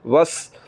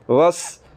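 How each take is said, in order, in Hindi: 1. s तेज़ है, उसमें सीटी की आवाज़ होती है। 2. s तेज़ है, उसमें सीटी की आवाज़ होती है।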